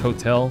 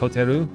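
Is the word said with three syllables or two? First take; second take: two; three. First: It has two syllables and ends in an L. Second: It has three syllables and ends in -ru. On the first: This is the English way of saying it. "So for me, it's hotel" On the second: This is the Japanese way of saying it. "For them, it's hoteru"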